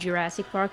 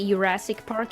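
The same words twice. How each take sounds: First: Jurassic starts with a j sound. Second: Jurassic starts with a y sound. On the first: This is the standard English way. The speaker calls it right. "instead of Jurassic Park" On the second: This is the speaker's habitual Swedish-influenced way. The speaker calls it wrong. "so I say Jurassic Park instead of"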